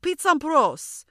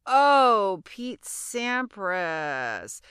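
First: Put-on high, loud, drawn-out French accent; Julien. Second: Long loud oh, then very slow name; dawning realization. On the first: French student says it once more, mock French accent. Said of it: "I didn't understand his accent". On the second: Retold or imitated. Finally understanding the French student, slow realization. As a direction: draw it out as it finally clicks.

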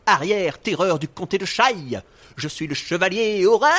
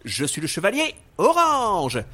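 First: Loud, high heroic cry; heroic shout. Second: Heroic declaration. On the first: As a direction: proclaim it like a brave knight. Hero's heroic entrance cry. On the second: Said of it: "Alors, je reprends". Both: Acted.

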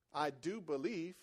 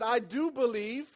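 First: Soft, low and slow; hushed, unhurried reflection on the words; quiet restatement. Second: Raised, drawn-out declaration; a restrained, slow outcry of faith; mildly cried out. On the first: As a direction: repeat it gently, pitched down. Quieter repeat of the father's cry. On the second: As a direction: cry it out slowly, but only half-way. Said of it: "The father instantly cried out". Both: Retold or imitated.

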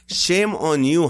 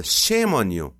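First: Much higher, louder, slower shame; over-the-top scolding; mock outrage. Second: Loud, higher mock scold; playful shame on you. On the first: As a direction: stretch it out in hammed-up outrage. Repeated bigger scold. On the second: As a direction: wag a finger at the crowd. Scolding audience jokingly.

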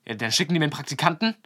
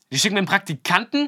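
First: Fast, louder incredulous question; mock outrage. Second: Much higher, louder outraged question; imitated freak-out. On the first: Rink owner hearing he got an intern, imitated as indignant. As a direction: imitate his indignant disbelief, quickly. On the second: Rink owner blowing up about being sent an intern, mock outraged. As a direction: imitate him blowing up in disbelief. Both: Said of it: "dann ist er so ausgerastet".

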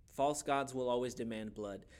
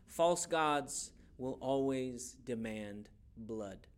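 First: Said in the usual way. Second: False gods will always demand blood, every word drawn out very slowly; slow it right down and lean on False; slow emphatic statement. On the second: Shown as a demonstration. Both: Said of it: "share with you a little something".

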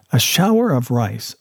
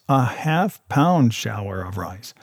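First: Said in the usual way. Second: "half-pound" leaned on, slower and a little softer; stress on half-pound. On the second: A narrator's reading. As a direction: dwell on "half-pound", draw it out. Narrator repeats phrase for emphasis.

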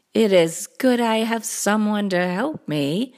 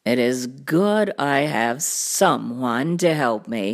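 First: Perky small storybook cat; little cat. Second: Low, deep cartoon cat voice; deep storybook cat; big cat. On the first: Acted. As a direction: echo the big cat in a smaller voice. Little Cat A introduces next helper. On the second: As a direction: say it deep and deliberate. Cat introduces first helper.

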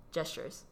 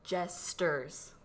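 First: 'gestures' said quickly with a SH sound in the middle, JESH-ters; accented mispronunciation. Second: 'Jesters' said slowly as two clear syllables, JES-ters; slow, careful pronunciation. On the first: Co-host showing how she always pronounced it, accented mispronunciation. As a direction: slip a 'sh' into 'gestures', said softly and briefly. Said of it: "I would always pronounce it as". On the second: Co-host attempting a word she can never pronounce, slow and careful. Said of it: "I have to say it slowly". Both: Shown as a demonstration.

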